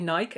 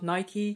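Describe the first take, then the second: First: The name is pronounced the Dutch way. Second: The name is pronounced the English way. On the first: "in the Netherlands we say Nike" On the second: "and not Nike"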